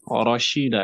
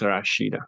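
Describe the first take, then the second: First: The first vowel sounds like a heavy 'o'. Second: The first vowel sounds like a light 'a'. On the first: The speaker calls it right. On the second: The speaker calls it wrong. "not Rashida"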